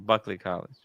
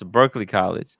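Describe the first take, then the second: First: The name is said like Buckley without an r. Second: The name is said like Berkeley with r-colored vowel. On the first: The speaker calls it right. "but it's actually Buckley College" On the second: The speaker calls it wrong. "Marcelo always mispronounces it. It's uh, he says it's Berkeley College"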